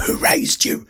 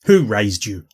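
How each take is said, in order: First: Whispered, unvoiced; mock whisper. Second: Said in the usual way. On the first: Ranting reactor whispers at the girl in the video. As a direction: breathe it as a scolding whisper.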